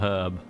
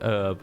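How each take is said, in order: First: The word starts with an H sound. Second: The word starts without an H sound. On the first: "not herb" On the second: "Some cheeky Frenchman decided one day it was going to be herb"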